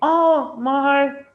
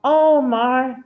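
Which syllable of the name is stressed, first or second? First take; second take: first; first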